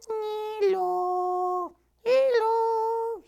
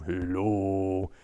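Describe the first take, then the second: First: Very high tiny flower voice; squeaky puppet voice. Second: Low quiet bear voice; bear puppet greeting. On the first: Flower puppet greeting the audience in a tiny high voice. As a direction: pipe it up like a little flower puppet. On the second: Reggie the bear puppet greeting, low and soft. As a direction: say it softly and low like a big shy bear. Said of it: "goes on the windowsill". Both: Acted.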